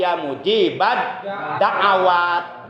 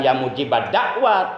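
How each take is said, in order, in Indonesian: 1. Kata terakhir tiga suku kata, ada vokal setelah 'a'. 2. Kata terakhir dua suku kata, tidak ada vokal setelah 'a'. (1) "tapi ya mujibad da'awat. Ainnya fathah" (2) "pangersa Abah bacanya bukan ya mujibad dakwat"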